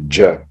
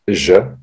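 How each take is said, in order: First: The first consonant is a hard dj sound. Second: The first consonant is a soft zh sound. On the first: This is the standard form. The speaker calls it right. "la bonne prononciation c'est ja" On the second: This is a regional habit. The speaker calls it wrong. "au Maghreb surtout, on la prononce ja"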